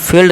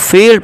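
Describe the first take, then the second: First: The vowel is said short. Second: The vowel is drawn out long. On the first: The speaker calls it wrong. "फील्ड नहीं पढ़ेंगे" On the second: The speaker calls it right. "अब फील्ड पढ़ेंगे"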